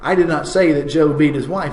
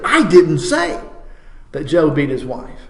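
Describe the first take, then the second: First: It is said plainly, with no special emphasis. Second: It is said forcefully, with strong emphasis. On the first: It is simply a statement of fact. "if I just say that, ... it's just a statement of fact" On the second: It is an absolute denial. "now that's a statement of absolute denial"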